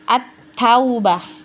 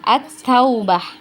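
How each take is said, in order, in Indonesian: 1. Bunyi l melebur ke huruf t yang ganda. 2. Bunyi l melebur ke huruf t yang ganda.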